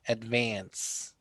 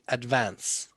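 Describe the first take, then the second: First: The word is said in an American accent. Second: The word is said in an Irish accent. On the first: "In an American accent, you would say" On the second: "In an Irish accent, you would say"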